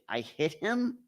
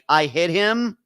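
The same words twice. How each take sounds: First: The voice rises at the end like a question. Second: The voice falls at the end like a statement. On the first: It is a question. "Or was it a question?" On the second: It is a declaration. "making a declaration like"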